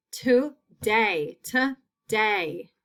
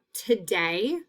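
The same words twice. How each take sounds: First: Today in two separate beats; split into syllables. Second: Said in the usual way. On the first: Shown as a demonstration. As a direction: pause between to and day in today. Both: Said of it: "That long A is in the second syllable".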